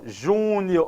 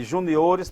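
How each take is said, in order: First: "júnior" with a long, stressed JÚ. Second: "juniores" with the stress moved to O. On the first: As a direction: draw out the first syllable of "júnior". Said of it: "olha a sílaba tônica". ("júnior" bem devagar, com a tônica no JÚ) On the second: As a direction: land on the O in "juniores". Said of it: "passa a o". ("juniores" com a tônica no O) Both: Shown as a demonstration.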